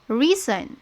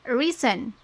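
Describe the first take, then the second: Both takes have the same delivery.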